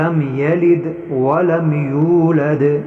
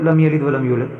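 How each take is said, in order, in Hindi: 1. यह वाक्यांश धीरे पढ़ा जाता है। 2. यह वाक्यांश जल्दी से पढ़ा जाता है। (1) "इसको आराम से पढ़ना है" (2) "हम कैसे पढ़ते हैं, स्पीड में"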